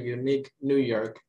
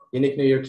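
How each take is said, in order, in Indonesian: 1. Frasa itu diucapkan lambat. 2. Frasa itu diucapkan sangat cepat. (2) "And faster, more, more faster"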